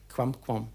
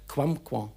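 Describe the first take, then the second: First: The final m is light and nasalized. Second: The same.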